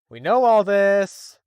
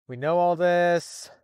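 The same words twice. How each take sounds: First: Louder, higher, slow exasperated shout; exasperated yell. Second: Exasperated. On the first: Fed up with the story's recap, shouting slowly. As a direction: bellow it at the recap. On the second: Exasperated at recap, said twice. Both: Real, not acted.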